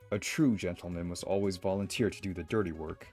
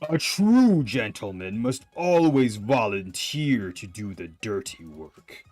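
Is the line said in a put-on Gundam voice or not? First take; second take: no; yes. First: It is said without the Gundam voice. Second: It is said in a put-on Gundam voice.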